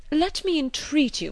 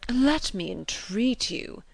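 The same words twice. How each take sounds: First: Repeated plea pitched much higher; higher, more insistent gallant plea; eager entreaty. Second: Slow, earnest plea; slow gallant entreaty; entreating. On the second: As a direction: beg her courteously, drawn out. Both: A narrator's reading. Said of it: "cried Mister Elton".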